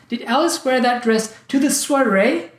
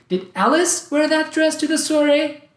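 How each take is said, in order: First: The word soiree is stressed. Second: The word Alice is stressed. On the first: She was supposed to wear it elsewhere. "I thought she was going to wear it at the wedding" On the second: Someone else was supposed to wear it. "I thought it was someone else who was supposed to wear it"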